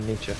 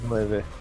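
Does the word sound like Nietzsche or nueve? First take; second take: Nietzsche; nueve. First: The word is said like Nietzsche. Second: The word is said as nueve. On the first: The speaker calls it wrong. "Not Nietzsche" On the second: The speaker calls it right.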